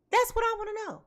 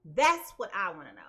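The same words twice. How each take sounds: First: Higher, louder demand. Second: Said in the usual way. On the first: Real, not acted.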